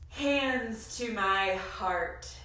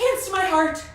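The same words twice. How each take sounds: First: It is said at a normal pace. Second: It is said very fast.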